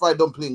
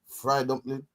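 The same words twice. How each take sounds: First: The final g sound of dumpling is pronounced. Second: The final g sound of dumpling is dropped. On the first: The speaker calls it wrong. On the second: The speaker calls it right.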